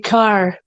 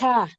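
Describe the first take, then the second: First: The word is said in a general American accent. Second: The word is said in a Boston accent. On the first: "I could say car normally" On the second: "only catch the Boston accent in it once"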